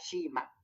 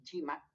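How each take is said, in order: First: The word begins with a soft 'sh' sound. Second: The word begins with a sharp 'ch' sound. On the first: This is the form people in Lima cannot say. "que sería Shima" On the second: This is how people in Lima say it. "entonces dicen Chima"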